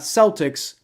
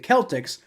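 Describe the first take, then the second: First: The word begins with a soft S sound. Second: The word begins with a hard K sound. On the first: The speaker calls it wrong. "like circle" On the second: The speaker calls it right. "like cake"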